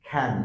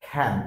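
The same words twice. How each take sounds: No difference in how they are said.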